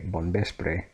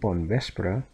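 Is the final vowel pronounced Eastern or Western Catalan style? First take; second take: Western; Eastern. First: The final E has the Western Catalan sound. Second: The final E has the Eastern Catalan sound. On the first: "here they would... say bon vespre" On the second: "instead of saying bon vespre"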